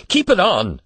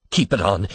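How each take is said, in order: First: Much higher and louder repeat; hurried urging. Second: Said in the usual way. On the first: A narrator's reading. Father hurriedly stopping the old man from undressing, pressing. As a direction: urge it again, hurried and pressing. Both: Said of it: "said Mister Button hurriedly".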